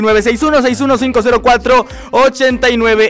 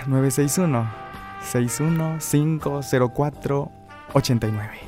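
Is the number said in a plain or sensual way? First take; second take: plain; sensual. First: It is said in a plain, normal way. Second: It is said in a soft, sensual way.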